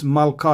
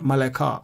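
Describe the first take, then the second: First: No vowel is heard between l and k. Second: A short vowel is heard between l and k. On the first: The speaker calls it right. "we don't pronounce the schwa under lamed" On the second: The speaker calls it wrong. "It's not maleka"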